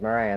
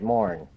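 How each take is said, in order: First: The name is said with two syllables. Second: The name is said with one syllable. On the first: The speaker calls it wrong. "They never pronounced it Moran" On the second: The speaker calls it right. "they pronounced it Morn"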